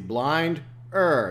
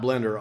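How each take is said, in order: First: The first vowel sounds like 'eye'. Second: The first vowel sounds like 'eh'. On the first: The speaker calls it right. "it's Blinder, not Blender, obviously, because of the I. See" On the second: The speaker calls it wrong. "not Blender"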